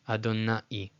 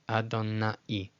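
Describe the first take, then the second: No difference in how they are said.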